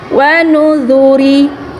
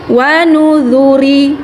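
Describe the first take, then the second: The two takes are said the same way.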